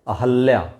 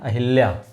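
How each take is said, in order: First: There is no 'i' vowel after the 'h'. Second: There is an 'i' vowel after the 'h'. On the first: The speaker calls it right. "क्या है? अहल्या" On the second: The speaker calls it wrong. "अक्सर बोलते हैं अहिल्या, अहिल्या नहीं है"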